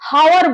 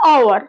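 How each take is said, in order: First: The word begins with a pronounced h sound. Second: The word begins with a vowel, h silent. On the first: The speaker calls it wrong. "হাওয়ার বলছি না" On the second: The speaker calls it right. "তো উচ্চারণটা আওয়ার হচ্ছে"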